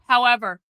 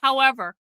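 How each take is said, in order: Both takes have the same delivery.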